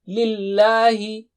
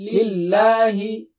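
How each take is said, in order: First: The L sound is thin and light. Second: The L sound is thin and light.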